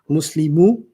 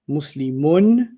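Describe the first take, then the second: First: The word ends on a vowel, without n. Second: The word ends with an n sound. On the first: "I took the ends off" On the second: "the last letter you heard was the letter N"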